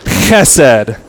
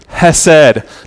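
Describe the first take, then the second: First: The first sound is a harsh, throaty rasp. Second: The first sound is a plain, soft h.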